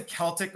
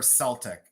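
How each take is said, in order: First: "Celtic" as KEL-tik; hard-K pronunciation. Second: "Celtic" as SEL-tik; soft-C pronunciation. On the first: Seller asking viewers which way, "Celtic" with a K. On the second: Seller asking viewers which way, "Celtic" with an S. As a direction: open "Celtic" with an S sound. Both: Shown as a demonstration. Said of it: "Do people say Celtic or Celtic".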